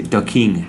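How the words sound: The word 'the' begins with a hard d sound. "in Jamaica or some parts of the Caribbean, maybe they say the king, duh"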